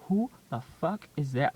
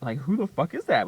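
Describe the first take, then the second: First: Loud, delighted shout; excited outburst. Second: Louder delighted shout; louder excited repeat. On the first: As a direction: blurt it out in disbelief. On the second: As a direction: push the repeat even harder. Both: Retold or imitated. Hearing the radio, laughing.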